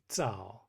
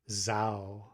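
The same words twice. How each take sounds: First: The first sound starts with a brief stop. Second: The first sound is a continuous buzz without stop. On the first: The speaker calls it right. "you say zao" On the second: The speaker calls it wrong. "you don't say zao"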